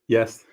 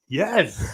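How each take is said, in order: First: It is said flatly, without enthusiasm. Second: It is said with lively enthusiasm.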